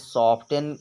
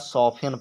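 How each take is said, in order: First: The t sound is clearly pronounced. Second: The t sound is left silent. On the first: "सॉफ्टन पढ़ो" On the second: "टी silent रहता है"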